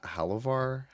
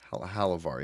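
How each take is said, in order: First: "Halavar" lifted high like a question; tentative "Halavar", asking if that is right; questioning tune. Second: "Halavar" settling downward as a statement; "Halavar" confirmed in an everyday pitch; confirming tune. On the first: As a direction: say "Halavar" unsurely, pitch rising. Unsure of a name. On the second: Confirms the name with yeah. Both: Real, not acted.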